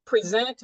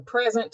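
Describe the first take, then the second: First: "present" with the weight up front; noun present. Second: "present" leaning on the end; verb present. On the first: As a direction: stress on the first syllable, PRE-sent. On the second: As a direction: stress on the second syllable, pre-SENT. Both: Shown as a demonstration. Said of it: "present or present".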